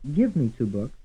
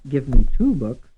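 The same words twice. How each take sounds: First: The stress is on the word give. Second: The stress is on the word two.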